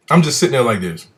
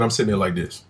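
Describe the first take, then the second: First: Showing a blank skeptical face while he talks; sitting there unconvinced, letting the doubt show; stone-faced demonstration. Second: Said in the usual way. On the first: Shown as a demonstration. Telling how he sat through her story, a skeptical stare.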